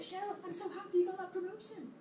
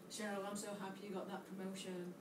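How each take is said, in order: First: It is said warmly, sounding genuinely happy. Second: It is said flatly, sounding unhappy and sarcastic. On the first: The speaker is truly happy about it. "It's the same words, but said differently" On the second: The speaker is not really happy about it. "doesn't look like it, right?"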